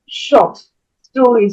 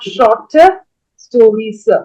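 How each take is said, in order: First: The word short is kept clipped and brief. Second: The word short is drawn out and extended. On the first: The speaker calls it right. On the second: The speaker calls it wrong. "not shorter stories. So don't extend the sound"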